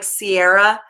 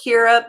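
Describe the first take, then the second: First: The name begins with an S sound. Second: The name begins with a K sound. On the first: The speaker calls it wrong. "but it looks like Sierra" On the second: The speaker calls it right. "It's pronounced Kira"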